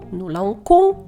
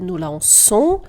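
First: The consonant before the o sounds like k. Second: The consonant before the o sounds like s. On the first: The speaker calls it wrong. "«ну ланкон» і так далі" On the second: The speaker calls it right. "щоб вона читалася саме як звук «с»"

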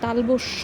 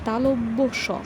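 First: It is said as one run-together word, 'talabasya'. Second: It is said as 'talabya', then a separate 'sha'. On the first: The speaker calls it wrong. "তালবস্য বলবো না" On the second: The speaker calls it right. "এটি হচ্ছে তালব্য স"

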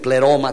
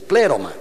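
First: The stress is on the second syllable. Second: The stress is on the first syllable. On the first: The speaker calls it wrong. "dicen pléroma también, no" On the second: The speaker calls it right. "es pléroma. La omega no tiene acento"

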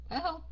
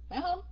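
The two takes are said the same way.

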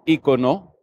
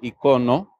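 First: It is pronounced the way this speaker says it. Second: It is pronounced the way it is in Spain. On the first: "yo digo icono" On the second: "en España se llama icono"

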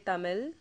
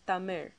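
First: The word ends with a plain L sound. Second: The word ends with an R-like sound. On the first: The speaker calls it wrong. "they instead say Tamil" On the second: The speaker calls it right. "the correct way of pronouncing it is Tamir"

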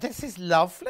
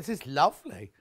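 First: It is said in a surprised tone. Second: It is said in a matter-of-fact tone. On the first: The speaker did not expect it to be nice. The speaker calls it wrong. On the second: The speaker simply finds it nice. The speaker calls it right.

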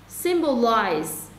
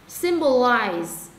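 No difference in how they are said.

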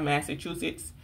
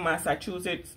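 First: The first part sounds like standard 'Massa'. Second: The first part sounds like 'Masa'. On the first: "not Massachusetts" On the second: "my kids and I call them Massachusetts"

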